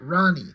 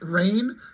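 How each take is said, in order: First: It is two syllables, 'raw' then 'knee'. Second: It is one syllable rhyming with 'pain'. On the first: "like raw and then knee" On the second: "I think it's pronounced rain"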